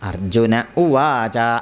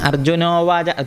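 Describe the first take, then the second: First: A break comes before a separate 'u' sound. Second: The two words run together into one. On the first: The speaker calls it right. "അത് നിർത്തിയിട്ട് തന്നെ പറയണം" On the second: The speaker calls it wrong. "അർജുനോവാച എന്ന് പറയരുത്"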